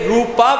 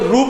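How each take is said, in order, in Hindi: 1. शब्द का अंत लंबे 'aa' स्वर से होता है। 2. शब्द का अंत व्यंजन 'p' से होता है। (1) "जब ये रूपा प्रोनाउंस किया जाता है तो ये कॉनोटेशन देता है कि जैसे नरसिंह भगवान कोई फीमेल हो" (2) "जब मेल होंगे तो रूप होगा"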